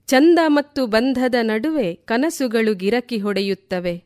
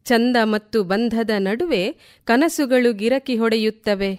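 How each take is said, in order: Both takes have the same delivery.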